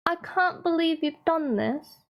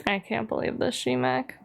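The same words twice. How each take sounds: First: Higher-pitched put-on British accent; hammed-up, badly faked British reproach. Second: Said in the usual way. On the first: Scolding G-Mac over the spreadsheet, bad British accent. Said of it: "my British accent's really bad".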